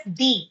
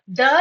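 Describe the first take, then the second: First: "the" said as thee; long ee vowel in "the"; alternative pronunciation. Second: "The" with a schwa, like thuh; short neutral vowel in "The"; usual pronunciation. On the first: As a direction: say "the" to rhyme with see. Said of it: "sometimes pronounced as the". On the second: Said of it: "The is sometimes pronounced as the". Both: Shown as a demonstration.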